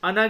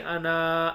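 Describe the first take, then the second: First: The final vowel is kept short. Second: The final vowel is drawn out long. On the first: The speaker calls it right. "अना की तरह पढ़ेंगे" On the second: The speaker calls it wrong. "अना ऐसे नहीं खींचेंगे"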